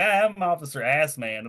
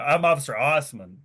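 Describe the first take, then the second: First: The name begins with an 'ass' sound. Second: The name begins with an 'oss' sound. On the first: The name is read the way it is spelled. "that's how it was spelled" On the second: The name is said the way its owner preferred. "pronounced it Osmond"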